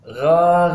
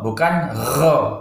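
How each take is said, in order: First: The r sound is clear with no breath. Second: The r sound has too much breath. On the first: The speaker calls it right. "sifatnya jahar atau jelas, tidak boleh pakai angin" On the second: The speaker calls it wrong. "terlalu anginnya terlalu berlebihan"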